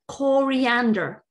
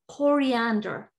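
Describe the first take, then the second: First: It is said in an American English accent. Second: It is said in an American English accent.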